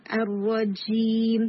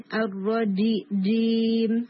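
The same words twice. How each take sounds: First: الرجیم with a loose, running 'zh'-like j, drawn out slowly; slow recitation of الرجیم, air leaking through the j; wrong soft jeem. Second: الرجیم recited slowly with a hard, airless j; correct strong jeem. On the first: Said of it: "نہیں". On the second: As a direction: strike the j of جیم once, cleanly. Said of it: "strong ہٹ کی sound آئے گی without air". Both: Shown as a demonstration.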